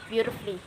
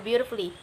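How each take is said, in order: First: No vowel is sounded before the 'lly'. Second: A full vowel is sounded before the 'lly'. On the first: The speaker calls it right. "Cut the U off and you can pronounce it like" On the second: The speaker calls it wrong. "I'm not pronouncing that like"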